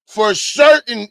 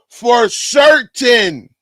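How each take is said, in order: First: Said in the usual way. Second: Slow, drawn-out shout of certain; gloating shout at chat; emphatic slow shout. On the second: Real, not acted. Streamer gloats after winning bet.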